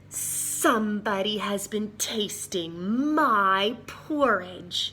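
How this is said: It is said in a big, growling voice. The biggest bear is speaking. "she growled in her big voice"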